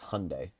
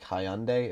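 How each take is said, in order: First: The word is said differently from its spelling. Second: The word is said just as it is spelled. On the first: The speaker calls it right. "it's Hyundai" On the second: The speaker calls it wrong. "even though it looks like Hyundai"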